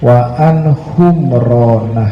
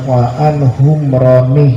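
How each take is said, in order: First: The name ends with an 'a' vowel. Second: The name ends with an 'i' vowel. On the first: The speaker calls it right. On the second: The speaker calls it wrong.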